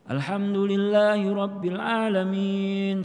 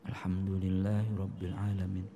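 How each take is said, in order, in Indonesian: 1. Dibacanya keras dan lantang. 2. Dibacanya pelan dan lirih. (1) "baca Quran kenceng" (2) "pelan-pelan ... Lirih"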